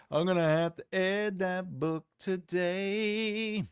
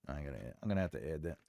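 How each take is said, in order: First: Slow sing-song announcement; drawn-out repeat. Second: Low, quick and soft; a hushed note to self; muttering to self. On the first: Pretend. Streamer telling himself to add that book, drawn out. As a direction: stretch every word slowly, holding the last. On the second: Real, not acted. Streamer reminding himself to add a book, muttered. Same words, muttered first.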